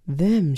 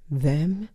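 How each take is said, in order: First: "Them" said flatly, falling, as a plain fact; the mother insisting, a firm falling "Them"; matter-of-fact repeat. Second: "Them?" asked with a rising, disbelieving lift; incredulous question. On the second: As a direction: echo the word back in disbelief, rising at the end. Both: Retold or imitated. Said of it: "she says".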